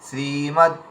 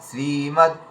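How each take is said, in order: The two takes are said the same way.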